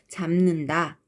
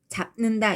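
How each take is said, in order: First: The first syllable ends in an m sound. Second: The first syllable ends in a p sound. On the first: The speaker calls it right. "브가 무로 바뀌었어요" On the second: The speaker calls it wrong. "이렇게 발음하지 않잖아요"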